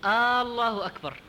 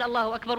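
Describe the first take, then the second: First: الله opening on a long held "aa"; slow aallahu akbar for الله أكبر; stretched first hamza. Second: Said in the usual way. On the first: Shown as a demonstration. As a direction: drag out the start of الله like some muezzins. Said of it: "يمدها". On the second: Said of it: "يعني، هل".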